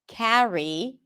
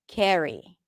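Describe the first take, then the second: First: The first vowel sounds like the vowel in cat. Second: The first vowel sounds like the vowel in red. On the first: "instead of saying carry" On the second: "you turn it into ke"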